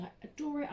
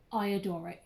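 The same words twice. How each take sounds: First: Adore said higher with weight on it; stress on adore. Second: Said in the usual way. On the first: Shown as a demonstration. Vlogger insisting to viewers, stressing adore. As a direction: lean into the word adore. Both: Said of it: "when I say adore, I mean".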